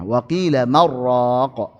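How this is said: 'Man' runs straight into 'raq', the n merging. "langsung disambung tanpa disaktah"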